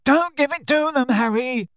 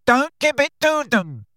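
First: Much higher, louder desperate shout; roared. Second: Much higher, louder desperate cry; roared. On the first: Neville shouting at Harry while Bellatrix closes in, much higher and louder. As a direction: beg Harry with all he has. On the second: Neville roaring at Harry not to give in, much higher and louder. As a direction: yell it beside himself. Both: A narrator's reading. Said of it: "roared Neville".

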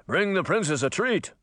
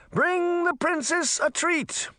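First: Raised-pitch soldier's relay call; shouted order. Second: Very high, slow, stretched-out call; shouted order. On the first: Second merman soldier repeats the order, mildly shouted. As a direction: pass the order on in a higher, contained call. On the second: Merman relays the princess's order, high drawn-out call. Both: A narrator's reading. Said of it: "A second merman soldier shouted".

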